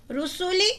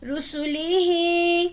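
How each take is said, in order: First: Read quickly. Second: رسولی said quickly, then ہی held long; stretch the ہی. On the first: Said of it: "رسولی جلدی پڑھا". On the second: Teacher contrasts the quick word with the long ہی. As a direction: after a quick رسولی, draw out ہی slowly. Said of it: "ہی کو کھینچیں گے". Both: Shown as a demonstration.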